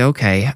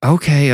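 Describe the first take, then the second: First: Said in the usual way. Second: High falling, eye-rolling "Okay"; exasperated okay. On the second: Acted. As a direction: sigh out "Okay" with annoyance. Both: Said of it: "Marilyn rolled her eyes".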